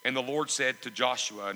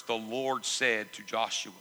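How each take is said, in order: First: Said in the usual way. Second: Slow, weighted "The Lord said to Joshua"; emphatic repetition. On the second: Shown as a demonstration. Preacher pointing out who spoke in the verse, slow emphasis on "The Lord said to Joshua". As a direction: space out "The Lord said to Joshua", each word deliberate. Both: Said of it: "That's what I want to emphasize".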